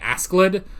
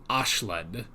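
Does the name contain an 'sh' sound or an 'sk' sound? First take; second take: sk; sh. First: The name is said with an 'sk' sound. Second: The name is said with an 'sh' sound. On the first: This is how the speaker is used to saying it. "that's what I'm used to" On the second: This is how the English dub says it. "they said Ashled, and I guess that's kind of how they pronounce it"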